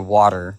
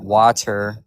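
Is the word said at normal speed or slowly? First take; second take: normal; slow. First: The word is said quickly, at conversational speed. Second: The word is said slowly and carefully. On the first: It is casual conversation. "If we're just talking in a conversation and I I bring up water, then I'm gonna say water" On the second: The speaker is making it clearer. "But if I slow it down, I'm gonna be like water"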